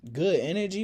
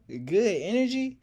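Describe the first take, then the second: First: Mocking laugh. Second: Higher, louder incredulous echo with a rising end; mocking disbelief. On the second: [name] mocking the narrator's line, loud and incredulous. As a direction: throw his words back at him in disbelief. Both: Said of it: "laughing so hard".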